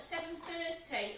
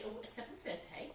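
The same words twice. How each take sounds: First: Said in the usual way. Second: Posh voice. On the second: Pretend. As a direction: say it like a posh lady. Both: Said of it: "Put your posh voice on there".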